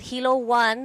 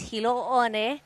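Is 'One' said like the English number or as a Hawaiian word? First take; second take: English number; Hawaiian word. First: 'One' sounds like the English number one. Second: 'One' is said as a two-syllable Hawaiian word. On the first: The speaker calls it wrong. "It's not Hilo One" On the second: The speaker calls it right. "It's Hilo One"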